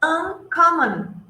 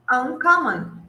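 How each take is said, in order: First: Uncommon, said slowly and clearly; teacher drawing out Uncommon; slow model word. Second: Said in the usual way. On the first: Shown as a demonstration. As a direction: stretch out Uncommon for the class. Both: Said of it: "A ver, la próxima".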